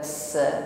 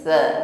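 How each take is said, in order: First: The consonant is a sharp hissing s. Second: The consonant is a soft breathy th. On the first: The speaker calls it wrong. "bukan sa" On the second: The speaker calls it right. "tipis sekali bunyi sa-nya, ya, nafas berhembus namun tipis sekali, tidak berdesis"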